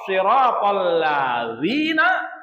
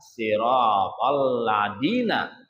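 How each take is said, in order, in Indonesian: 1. Konsonannya bunyi 'dh' yang lembut. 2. Konsonannya bunyi 'd' biasa.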